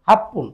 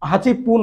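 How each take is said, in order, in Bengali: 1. এটি এক সংকুচিত শব্দ হিসেবে বলা হয়: happun। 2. এটি দুই শব্দ হিসেবে বলা হয়: hachi pun। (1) "বলতে হবে হাফপুন" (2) "হাঁচি পুন না বলে"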